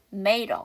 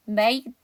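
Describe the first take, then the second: First: "made" linked to a with a flap, may-ruh; further weakened. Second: "made" linked to a, may-duh with a clear D; linked sounds. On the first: Teacher weakening it further, "made" as may-ruh. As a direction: soften the D of "made" into a quick R-like tap. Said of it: "더 약화시켜서". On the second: Teacher showing linking, "made" as may-duh. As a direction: run "made" into a weak uh, keeping the D. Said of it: "made 다음에 어니까 연음해서". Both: Shown as a demonstration.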